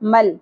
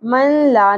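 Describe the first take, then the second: First: The n merges fully into the l, without nasal hum. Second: The n is pronounced separately before the l. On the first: The speaker calls it right. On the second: The speaker calls it wrong. "من لا نہیں پڑھنا"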